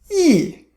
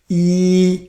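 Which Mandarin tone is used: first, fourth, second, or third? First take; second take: fourth; first. First: The pitch falls sharply from high. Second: The pitch stays high and level. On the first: "Fourth tone" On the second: "First tone, you practice yi"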